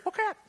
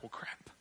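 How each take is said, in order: First: Put-on very high little-kid voice; parroting toddler. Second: Very quiet, under the breath; muttered slip. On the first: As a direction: imitate a small child copying dad. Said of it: "then what I hear". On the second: Retold or imitated. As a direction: let it slip out, barely audible. Retells own slip near his child.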